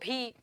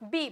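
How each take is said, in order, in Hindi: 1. पहला व्यंजन महाप्राण है, हवा के झोंके के साथ। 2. पहला व्यंजन अल्पप्राण है, बिना हवा के झोंके के। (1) "जो गलत गलत बोलते हो भी" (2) "बोलो बी"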